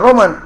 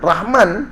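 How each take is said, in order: First: The r is heavy, making the vowel sound like o. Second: The r is light, keeping a clear a vowel. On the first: The speaker calls it wrong. "Kadang bukan Roman" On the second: The speaker calls it right. "Ro-nya tak ada tafkhimnya kan itu"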